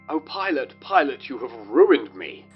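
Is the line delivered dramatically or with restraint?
dramatic. It is said in an over-the-top, theatrical way.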